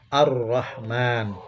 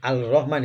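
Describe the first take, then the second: First: The L blends into a doubled R sound. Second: The L sound is pronounced before the R. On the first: The speaker calls it right. "huruf lamnya tidak dibaca ya, atau hilang" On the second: The speaker calls it wrong. "Jadi bukan Al-Rahman ya"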